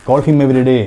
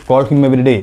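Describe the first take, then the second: The two takes are said the same way.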